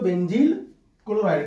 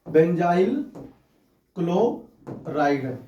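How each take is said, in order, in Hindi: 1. 'benzyl' के दूसरे अक्षर में 'ee' स्वर है। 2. 'benzyl' के दूसरे अक्षर में 'eye' स्वर है। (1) "आप इसे हिंदी में बोलते हो" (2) "इसका नाम है बेंजाइल क्लोराइड"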